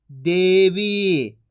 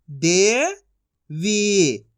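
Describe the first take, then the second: First: Said in the usual way. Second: दे rising long, pause, वी; syllable by syllable. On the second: Shown as a demonstration. Teacher sounding out for learners, syllable by syllable. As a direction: split Devi into two drawn-out sounds. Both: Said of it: "एक एक अक्षर का उच्चारण".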